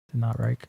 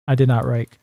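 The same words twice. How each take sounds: First: Softer, lower repeat; quiet. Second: Said in the usual way. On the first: Real, not acted. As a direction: say it again under the breath. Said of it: "quieter repeat". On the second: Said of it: "repeats own line".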